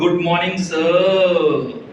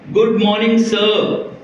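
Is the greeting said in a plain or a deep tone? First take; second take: deep; plain. First: It is said in a deep, loaded tone. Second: It is said in a plain, respectful tone.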